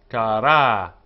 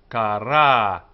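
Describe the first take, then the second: No difference in how they are said.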